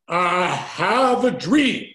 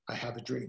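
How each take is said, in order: First: It is said dramatically, with strong pitch movement. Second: It is said plainly, with flat, even pitch. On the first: "And he aligned his voice tonality" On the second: "So he didn't just say"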